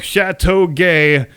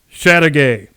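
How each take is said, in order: First: The name is said with a French pronunciation. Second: The name is said with an English pronunciation. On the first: "if you pronounced it in the technically correct original French manner" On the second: "the correct pronunciation for English speakers"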